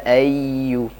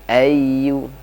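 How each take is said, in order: No difference in how they are said.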